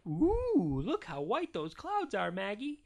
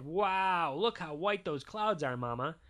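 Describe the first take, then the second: First: Lightly voiced mom, high drawn-out "Ooh"; cooing Mama. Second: Lightly voiced dad with a big "Wow"; a touch of fatherly wonder; amazed Daddy. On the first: Mama showing baby Maggie the clouds, lightly cooing. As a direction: coo a little, pitched up for a baby. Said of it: "And Mama said". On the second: Daddy admiring clouds to Mama, lightly voiced amazement. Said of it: "And Daddy said". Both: A narrator's reading.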